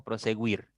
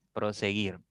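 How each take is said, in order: First: Proseguir with the u sounded, like pro-se-güir; wrong pronunciation. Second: Proseguir with silent u, pro-se-guir with a hard g; correct pronunciation. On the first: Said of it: "No decimos". (proseguir pronunciando la u, como proseGÜIR) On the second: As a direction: say Proseguir properly, no u sound. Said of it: "No decimos proseguir". (Proseguir con la u muda, pro-se-GIR) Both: Shown as a demonstration.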